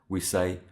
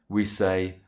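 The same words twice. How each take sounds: No difference in how they are said.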